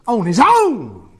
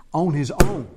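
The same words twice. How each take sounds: First: On his own stretched slowly, high and loud; emphatic repeat. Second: Said in the usual way. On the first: Real, not acted. Preacher repeating a point to the congregation, emphatic and slow. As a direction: hammer home On his own.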